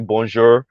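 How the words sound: It is said with an English accent. This is how English speakers say it. "with the English accent say it and say bonjour"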